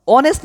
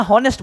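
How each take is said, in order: First: অনেস্ট with no h, opening on o; silent-h "onest" for অনেস্ট; correct pronunciation. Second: হনেস্ট with an audible h; h-first "honest" for হনেস্ট; wrong pronunciation. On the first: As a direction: contrast অনেস্ট by starting straight on the vowel. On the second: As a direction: contrast হনেস্ট by breathing an h before the o. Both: Shown as a demonstration. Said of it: "অনেস্ট না হনেস্ট বলো".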